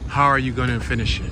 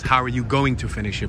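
First: 'Going to' is reduced to 'gonna'. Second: 'Going to' is said in full. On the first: "But I didn't pronounce it like that" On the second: "Or it really says"

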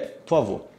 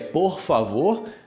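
First: The final R sound is dropped. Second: The final R sound is pronounced. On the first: This is how people actually talk. "na prática" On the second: This is the textbook form. "no cem por cento correto"

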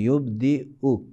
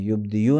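First: A glottal stop is said before the final vowel. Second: A y sound is said before the final vowel. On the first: The speaker calls it right. "हमज़ा पढ़ेंगे और या नहीं पढ़ेंगे" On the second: The speaker calls it wrong. "युबदियु नहीं"

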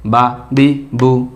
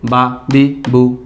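Both takes have the same delivery.

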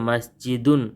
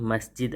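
First: The word ends with a full -un syllable. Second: The word ends abruptly on the final d. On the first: This is the complete form used when learning. "పూర్తిగా ఉచ్చరించాలి" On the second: This is the everyday spoken form. "వాడుక భాషలో"

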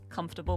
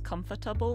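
First: The word is said with three syllables. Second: The word is said with four syllables. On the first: "I'm saying it Britishly to be three" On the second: "which is four syllables"

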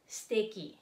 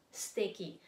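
First: The vowel after the first s is dropped. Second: The vowel after the first s is dropped.

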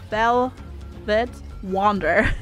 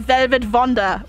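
First: The V and W sounds are standard. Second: The V and W sounds are swapped. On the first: "rather than velvet wander" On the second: "that just makes me want to say velvet wander"

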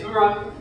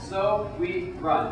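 First: The three words blend together into one word. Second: The three words are said separately and distinctly. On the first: The speaker calls it wrong. "it sounds like I'm saying So We Run. It sounds like it's like in French or something" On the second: The speaker calls it right. "So three different words"

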